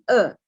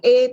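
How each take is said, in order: First: The vowel is a short, weak schwa sound. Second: The vowel is a full, clear e sound. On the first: "Namanya e pepet ya" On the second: "Bukan e"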